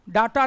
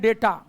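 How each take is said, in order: First: The first vowel sounds like 'dah'. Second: The first vowel sounds like 'day'. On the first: The speaker calls it wrong. "डाटा नहीं pronounce करते हैं" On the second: The speaker calls it right. "डीएटीए को हम pronounce करते हैं डेटा"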